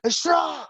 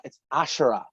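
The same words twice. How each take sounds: First: Ashura called out high and long; yelled name. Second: Said in the usual way. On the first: Retold or imitated. Yelling her name to call her, high. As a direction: call Ashura out across the yard. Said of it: "when you'd yell that". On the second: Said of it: "No, her name's not Sha".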